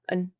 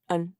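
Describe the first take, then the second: First: The vowel is reduced to a weak schwa. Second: The same.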